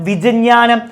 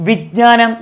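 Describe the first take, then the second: No difference in how they are said.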